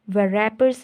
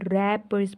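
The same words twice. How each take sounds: First: A w sound is pronounced at the start. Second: The word starts directly with an r sound. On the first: The speaker calls it wrong. "हम इसको रैपर्स नहीं बोल रहे" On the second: The speaker calls it right. "रैपर्स बोल रहे हैं"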